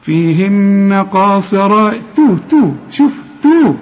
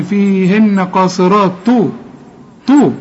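First: Slow chant of "فيهن قاصرات", then a thin raised "تو"; light thin ta. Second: "تو" thickened like the emphatic T after "قاصرات"; wrong heavy ta. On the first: Teacher models the light ta, slow chant then crisp syllable. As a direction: keep the t of "تو" light after the heavy letters. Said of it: "مرققة". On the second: Teacher warns the student, showing a heavy ta. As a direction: make the t in "تو" full and heavy. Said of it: "اوعى تقول لي". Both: Shown as a demonstration.

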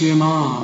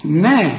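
First: نا said heavy and thick; the wrong way to say نا, with a thick nun. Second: نا said light and thin; the right way to say نا, with a thin nun; correct na. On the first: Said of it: "ما تقولش نا". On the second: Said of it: "كل نون في القرآن نا". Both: Shown as a demonstration.

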